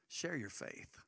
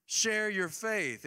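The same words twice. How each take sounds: First: Quiet point. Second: High, loud and slow charge; preacher urging the church to share their faith; emphatic command. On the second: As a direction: urge them, stretching each word. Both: Real, not acted.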